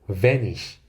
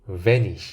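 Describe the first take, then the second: Both takes have the same delivery.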